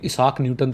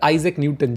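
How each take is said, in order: First: The first name starts with an 'ee' sound. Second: The first name starts with an 'eye' sound. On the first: The speaker calls it wrong. "इसाक Newton तो मेरे हिसाब से नहीं बोलते उनको" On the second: The speaker calls it right. "I hope मैं उनका नाम सही ले रहा हूँ"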